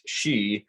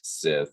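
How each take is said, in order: First: It starts with 'sh' and ends in a vowel. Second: It starts with 's' and ends with 'th'. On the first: This is the native Gaelic pronunciation. "in Scots Gaelic ... It is pronounced she" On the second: This is the English reading of the spelling. "In English, it would be pronounced Sith"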